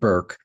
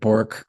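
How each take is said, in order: First: The vowel sounds like the one in 'fur'. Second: The vowel sounds like the one in 'fork'. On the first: The speaker calls it right. "she pronounces it Burke" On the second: The speaker calls it wrong. "I've been calling it Bork"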